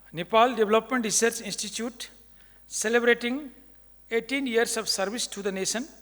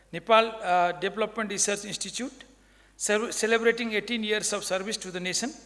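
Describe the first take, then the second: The two takes are said the same way.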